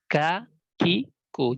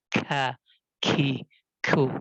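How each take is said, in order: First: The consonants are plain, without extra breath. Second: The consonants carry a strong puff of breath. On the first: The speaker calls it right. "yang benar adalah ya seperti halnya biasa" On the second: The speaker calls it wrong. "Jadi bukan"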